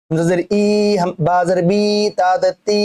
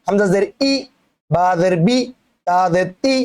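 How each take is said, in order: First: ই, বি, তি held long; wrong demo with long "ee" on ই, বি, তি; wrongly stretched vowels. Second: ই, বি, তি cut short; short vowels. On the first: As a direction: drag out the endings ই, বি, তি as a mistake. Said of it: "এরম না". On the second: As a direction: end ই, বি, তি promptly, with no stretch. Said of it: "উচ্চারণ তাড়াতাড়ি". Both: Shown as a demonstration.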